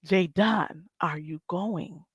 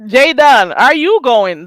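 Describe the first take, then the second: First: Soft, slow, drawn-out question; quiet slow ask. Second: Loud call-out. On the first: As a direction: ask it again softly and slowly. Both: Acted. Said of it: "That's the real question".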